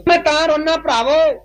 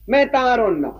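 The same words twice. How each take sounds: First: ਮੈਂ ਤਾਂ ਰੋਨਾ said higher, pressing on ਮੈਂ; insistent plea. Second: Said in the usual way. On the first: Retold or imitated. Grieving uncle insists to the Sikhs, pressing on ਮੈਂ. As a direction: lean hard on ਮੈਂ, insisting you will weep. Uncle repeats he will weep.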